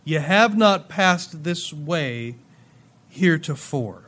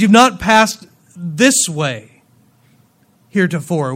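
First: Slow, even "You have not passed this way", "not" leaned on; measured emphasis. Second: Slow and loud, "this way" set apart and punched; stress on THIS WAY. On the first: Preacher rereads verse four to ponder it, measured emphasis on "not". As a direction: read it slowly and softly, without punching "this way". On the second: Preacher shows what God meant in the verse, stress on "this way". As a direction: hit "this way" hard, then pause before "heretofore". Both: Shown as a demonstration. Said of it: "put the emphasis on the wrong syllable".

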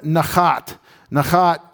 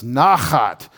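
First: Nachat said with the first vowel weakened; mispronounced nachat. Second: Nachat with a full, stressed first syllable, NAH-khat; corrected nachat. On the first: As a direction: slip on nachat, leaning on the last syllable, nuh-KHAT. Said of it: "I keep messing that up". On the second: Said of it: "I keep messing that up. That's nachat". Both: Shown as a demonstration.

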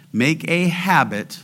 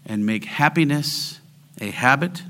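First: "habit" set out with emphasis; stress on habit. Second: Said in the usual way. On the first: Shown as a demonstration. Preacher correcting the sign's wording, emphasis on "habit". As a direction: lean on "a habit" as the key word. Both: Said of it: "I want to emphasize the last word".

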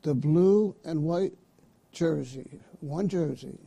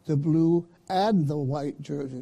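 First: BLUE stressed, "white" held up before a pause; one-item phrasing. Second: AND leaned on, then THE given separately; deliberate "blue AND the white", two separate items; two-item phrasing. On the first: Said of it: "Let me say it again". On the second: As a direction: stress "and the" to split blue from white. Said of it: "That's two jerseys or more". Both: Shown as a demonstration.

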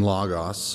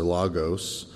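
First: "logos" in the first of two accepted pronunciations; first pronunciation variant. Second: "logos" in the second of two accepted pronunciations; alternative pronunciation. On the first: Teacher giving a Greek word for eschatology, first pronunciation variant. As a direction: say "logos" with open, ah-like vowels. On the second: Teacher offering the other way to say it, alternative pronunciation. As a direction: say "logos" with rounded, long oh vowels. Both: Shown as a demonstration. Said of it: "you can pronounce it either way".

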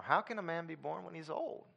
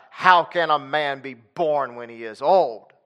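First: Much softer, almost under the breath, rising at the end; soft puzzled question. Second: Slow, weighty, each word leaned on; slow emphatic question. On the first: Preacher trying another reading of Nicodemus, soft and puzzled. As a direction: ask it quietly, honestly baffled. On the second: Preacher trying one reading of Nicodemus, slow and emphatic. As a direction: ask it slowly, as if the idea is absurd. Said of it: "if he said it like that". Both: Shown as a demonstration.

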